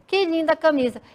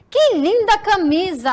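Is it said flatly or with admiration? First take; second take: flatly; admiration. First: It is said flatly, without admiration. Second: It is said with excited admiration.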